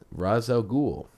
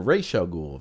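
First: Said in the usual way. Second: First word of "Ra's al Ghul" said as "raysh"; alternate pronunciation. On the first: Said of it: "I say Ra's al Ghul". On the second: Shown as a demonstration. Host shows how some people say the villain's name, "Ra's" pronounced "raysh". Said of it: "if you wanna pronounce it the way some do".

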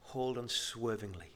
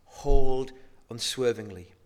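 First: Soft, low "Hold unswervingly"; gentle, hushed "Hold unswervingly"; quiet quote. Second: "Hold" hit loud, "unswervingly" slow; slow, louder "Hold unswervingly"; stressed. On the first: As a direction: say it softly, almost to yourself. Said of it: "And the writer says". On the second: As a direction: lean hard on "Hold", slow and firm. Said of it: "Don't relent, the writer says". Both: Shown as a demonstration.

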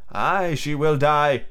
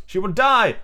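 First: Slow, resigned "she will die"; admitting. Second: High, emphatic DIE; alarmed warning. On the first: Slightly agreeing with Toodles about Wendy, admitting it. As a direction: concede it with a drawn-out "will". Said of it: "Slightly admitted". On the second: Toodles warning the boys about Wendy, alarmed. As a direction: raise the pitch in alarm on "she will die". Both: Acted.

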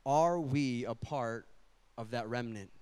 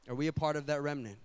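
First: Are we a part of that remnant, drawn out slowly with a pause; slow solemn question. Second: Are we a part of that remnant, said fast and plainly; quick repeat. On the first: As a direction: let each word of the question land slowly. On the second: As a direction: fire the question again quickly. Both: Shown as a demonstration. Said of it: "is this".

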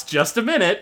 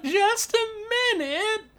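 First: Grandma calling out. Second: Put-on high, thin old woman calling; old grandma voice. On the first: Acted. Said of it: "Grandma Yelris shouts". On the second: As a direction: sing it out like a sweet old granny. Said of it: "she once again is like".

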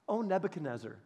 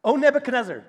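First: Soft, calm "O Nebuchadnezzar" with a falling end; "O Nebuchadnezzar" said softly, with no heat; quiet respectful address. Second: "O Nebuchadnezzar" said louder, with a firm fall on O; a loud, stately "O Nebuchadnezzar"; louder formal address. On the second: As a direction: declare "O Nebuchadnezzar" boldly to the king. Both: Shown as a demonstration. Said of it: "Oh, that didn't work".

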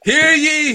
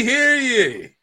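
First: Loud, high proclamation call; town crier. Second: High falling proclamation call; town crier. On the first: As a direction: cry it out to the square. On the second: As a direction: announce it like a herald. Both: Acted. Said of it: "this beatnik shows up".

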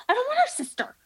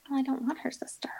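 First: Put-on much higher, childish whine on the word her; high whiny protest. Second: Hushed, quick whisper of refusal. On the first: Insisting to the breeder she only wants Pickle, whining high. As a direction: pitch it way up like a sulking kid. Retelling refusal of the puppy's sister. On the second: Retold or imitated. Telling the breeder she doesn't want the sister, whispered. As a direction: mutter it under your breath, fast, to yourself.

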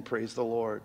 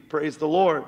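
First: "the" leaned on, lower and softer, trailing off; hushed praise. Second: "Lord" carried full and falling; preaching exclamation. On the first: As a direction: murmur it gently. Soft close after quiet passage. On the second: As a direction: proclaim it to the church. Preacher's exclamation closing a passage. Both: Acted.

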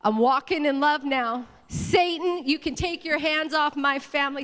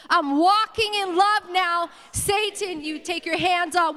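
First: Said in the usual way. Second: High, loud declaration with drawn-out words; forceful, raised rallying cry; like you mean it. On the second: Shown as a demonstration. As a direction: proclaim it with full conviction. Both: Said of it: "Say it like you mean it".

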